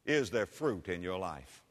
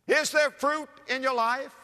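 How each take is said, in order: First: Low, soft, falling question; sober question. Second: High-pitched preacher's challenge, rising at the end; urgent challenge. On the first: Preacher searching the congregation's hearts, sober and quiet. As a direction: ask it quietly, letting it sink. Rhetorical question asked softly first. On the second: Preacher challenging church members about their lives, urgent. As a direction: press the question hard, voice lifted. Same question repeated as challenge. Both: Real, not acted.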